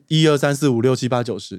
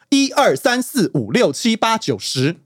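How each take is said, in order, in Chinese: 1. 声调听起来很平，挤在一起。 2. 每个声调的音高走向都拉得很开，很清楚。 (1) "你会发现它的字是平的" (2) "你要去把四声拉开去"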